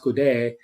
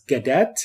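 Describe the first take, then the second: First: The surname is pronounced with French sounds. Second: The surname is pronounced with English sounds. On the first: "Is pronounced Goudet in uh, French" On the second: "my family name is Gadet in English"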